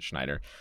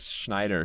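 First: The name is articulated in a relaxed, natural way. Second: The name is articulated with exaggerated, overly careful precision.

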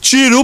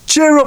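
First: It is said in a West Midlands accent. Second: It is said in the speaker's plain accent. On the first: The speaker calls it right. "He had a West Midlands accent" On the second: The speaker calls it wrong. "I didn't say it like that"

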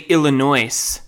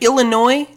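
First: The final S is pronounced. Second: The final S is silent. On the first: "Or do I say Illinois?" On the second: "Is it a silent S?"

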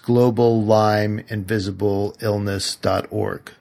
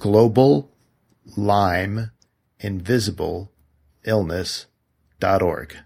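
First: It is said at normal speed. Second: It is said slowly, word by word.

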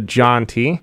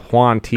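First: The name starts with a 'j' sound. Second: The name starts with a 'w' sound. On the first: The speaker calls it right. "It's actually the John T" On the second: The speaker calls it wrong. "you might mispronounce it and say it the Juan T"

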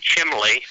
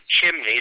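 First: It is said with an l sound, southern style. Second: It is said with an n sound, general style. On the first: "they'll say chimley" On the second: "they won't say chimney"

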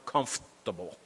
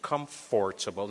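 First: The word is shortened, as in everyday speech. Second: Every syllable is pronounced as it is written. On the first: "that's the way we speak" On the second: "that's what I see"

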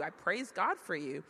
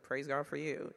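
First: It sounds warm and sincerely grateful. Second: It sounds indifferent and half-hearted.

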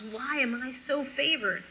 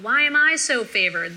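First: It is said sincerely, with warm delight. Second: It is said sarcastically, with a biting edge. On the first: The speaker truly feels honored by the visit. "Genuine humility and delight. There's no bite of sarcasm in her voice" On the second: The speaker resents the visit and feels competitive. "It's not like that"

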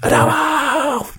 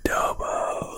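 First: The word is screamed loudly. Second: The word is whispered quietly.

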